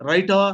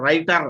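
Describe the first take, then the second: First: "writer" ending in an open "ah"; silent final R. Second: "writer" with a clear R at the end; sounded final R. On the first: Teacher giving students an example, "writer" without final R. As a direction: leave the R off the end of "writer". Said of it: "R should be removed from your pronunciation". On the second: Teacher showing students the mistake, "writer" with R sounded. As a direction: pronounce the last R in "writer". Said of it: "still R is pronounced". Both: Shown as a demonstration.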